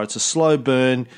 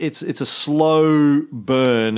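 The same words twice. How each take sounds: First: Said in the usual way. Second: Very slow, stretched emphasis on slow burn; drawn-out emphasis. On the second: Real, not acted. Host explaining gradual conversion to his co-host, slow and emphatic. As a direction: draw out slow burn to make the point. Drawing out the point.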